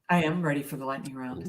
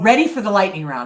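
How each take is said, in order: First: It is said flatly, without enthusiasm. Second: It is said with lively enthusiasm.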